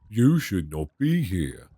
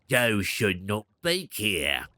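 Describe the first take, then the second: First: It is a plain, low put-on voice. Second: It is a harsh, strained put-on voice.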